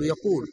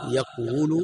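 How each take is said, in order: First: يقول as "yaqūl", long u after qaf; resulting form. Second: يقول as "yaqwulu", damma on the waw; underlying form. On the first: Teacher showing the result of the vowel shift, يقول pronounced "yaqūl". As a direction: say يقول with the damma moved onto the qaf. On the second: Teacher showing the form before the vowel shift, يقول pronounced "yaqwulu". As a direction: say يقول unshifted, waw carrying the u. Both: Shown as a demonstration. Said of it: "تنقل الضمة عن الواو إلى القاف".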